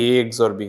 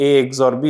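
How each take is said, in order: First: Said in the usual way. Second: Louder, marked A x or B with the weight on A; stressed answer. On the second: Shown as a demonstration. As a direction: announce the answer firmly, leaning on A. (জোর দিয়ে উত্তর বলা) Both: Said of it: "S equal A".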